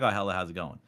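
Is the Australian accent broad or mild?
mild. It has a mild, polite Australian accent.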